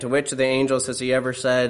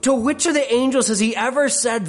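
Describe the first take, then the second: First: It is read in a flat, monotone voice. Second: It is read with strong, exclamatory emphasis. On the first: It is just words being read out. The speaker calls it wrong. "just sort of monotone" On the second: No angel was ever told such a thing. The speaker calls it right. "There should be an exclamation point after the question mark"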